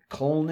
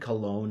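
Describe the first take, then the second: First: The name is said with German pronunciation. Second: The name is said with English pronunciation. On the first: "Cologne in German" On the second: "Cologne in English"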